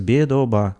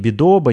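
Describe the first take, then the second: First: All syllables are said evenly, with no stress. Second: One syllable is said with clear stress. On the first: The speaker calls it right. "без ударения. То есть в грузинском языке ударений нет. Произносится бедоба. Вот так вот" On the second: The speaker calls it wrong. "Не бедоба"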